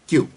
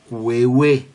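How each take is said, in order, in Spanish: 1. La palabra se dice como 'kyoo'. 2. La palabra se dice como 'kweh-weh'. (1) "La pronunciación correcta para esa palabrita en inglés es Q" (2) "No se pronuncia cuehue"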